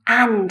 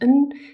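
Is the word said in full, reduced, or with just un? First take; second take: full; just un. First: The word has a full vowel and final d. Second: The word has a schwa and no final d. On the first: "And is the strong form" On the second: "or just un"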